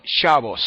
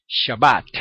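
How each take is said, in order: First: Shabbos, stress on the first syllable, o, final s. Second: Shabbat, stressed on the last syllable, open a, final t. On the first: Retold or imitated. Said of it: "los judíos askenazitas dicen". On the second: Shown as a demonstration. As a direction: end Shabbat on a clear bat. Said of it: "los sefarditas dicen".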